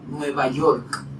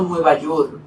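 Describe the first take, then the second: First: The final K sound is pronounced. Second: The final K sound is dropped. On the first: The speaker calls it right. "Es para pronunciarla" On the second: The speaker calls it wrong. "no Nueva York"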